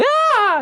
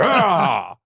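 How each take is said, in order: First: It is a high-pitched shriek. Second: It is a low, manly yell.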